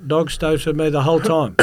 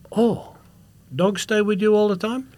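First: Louder, higher mock-simple answer; echoing the guard. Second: High, wondering broken-English question; imitated foreign security guard. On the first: Traveller assuring guard, raised echoing reply. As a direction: give the question back as a firm answer. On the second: Guard asking traveller about the dog, high wonder. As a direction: ask it pitched up, in broken English. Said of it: "big, he looked like a Moroccan, massive guy".

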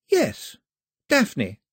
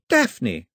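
First: Higher, firmer repeat of the name; girl repeating. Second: Even more loudly. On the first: Girl repeating her name to Mao, firmer. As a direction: say it again to be sure. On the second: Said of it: "she said again, even more loudly". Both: A narrator's reading.

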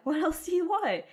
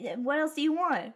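First: Repeated higher, pressing the point; emphatic repeat. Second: Said in the usual way. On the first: Real, not acted. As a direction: push the question again, higher. Repeats the question, rising.

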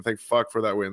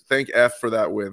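First: Said in the usual way. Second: "thank F" with the letter F standing in for the swear word; censored swear. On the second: Shown as a demonstration. Podcast host minces the swear word while thanking the team for the win. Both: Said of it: "Sorry, we're in a show".

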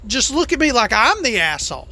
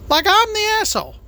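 First: Said in the usual way. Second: Much higher, fast, incredulous echo; mock outrage. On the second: Trucker echoing how cyclists see him, in mock outrage. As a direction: fling the words back in mock disbelief. Repeats complaint, then mocks it.

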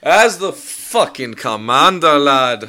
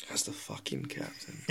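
First: Loud, slow mock-Irish proclamation; bad Irish accent. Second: Sighed out, very low and soft; deflated near-whisper. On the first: Claiming commander rank to his friends, in bad Irish accent. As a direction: declare it high and loud in fake Irish. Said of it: "You're not Irish at all". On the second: Acted. Restarting his interrupted title as captain, sighing and whispery. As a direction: let it out as a weary whisper.

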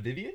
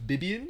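First: Said in the usual way. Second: "Bibian" with B replacing each V. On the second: Shown as a demonstration. Checking the Filipino sound swap, "Bibian" with Bs. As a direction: say Vivian as "Bibian". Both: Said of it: "Bibian instead of Vivian".

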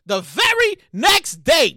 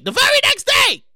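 First: VERY NEXT DAY spaced out slowly; measured, deliberate "very next day"; slow suspenseful setup. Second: VERY NEXT DAY pitched high; high, punchy "very next day"; emphatic repeat. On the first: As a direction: stretch each word of "very next day". Storyteller builds suspense by repeating. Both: Real, not acted.

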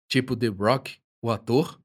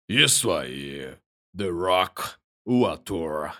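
First: Said in the usual way. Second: Low, slow big man voice; deep chesty voice. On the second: Acted. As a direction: answer proudly, deep and slow. The Rock answers, voiced.

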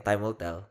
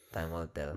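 First: Said in the usual way. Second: Much softer, repeated to himself; quiet echo. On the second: Real, not acted. Co-host repeats it to himself, much softer. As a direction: let it fall away under your breath. Repeating own remark as afterthought.

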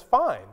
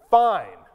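First: Fine with a lift, quick and light; a genuinely okay Fine; bright easy fine. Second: Fine dropped hard and louder; a clipped Fine that means not fine; curt annoyed fine. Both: Shown as a demonstration. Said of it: "those are two very different things".

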